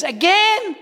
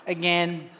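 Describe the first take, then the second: First: High, loud, incredulous question; exasperated brother. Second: Low, dry echo of the word; deadpan repeat. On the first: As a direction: shoot it back in loud disbelief. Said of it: "He goes". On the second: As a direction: drop it low for comic effect. Repeats brother's word, low, comic. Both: Retold or imitated.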